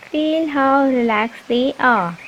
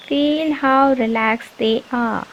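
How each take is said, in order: Both takes have the same delivery.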